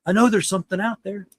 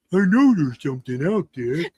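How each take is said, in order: First: Said in the usual way. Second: Lightly put-on big beast voice; a hint of a lumbering forest creature; Bigfoot voice. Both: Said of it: "That's my Bigfoot voice".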